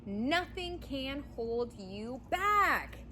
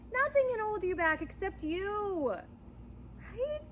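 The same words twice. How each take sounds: First: Each word drawn out slowly; slow emphatic promise; slow and deliberate. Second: Higher, punchier take; higher, more urgent retake; lifted emphatic. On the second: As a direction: lift it up and drive it home. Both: Real, not acted. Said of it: "you got this".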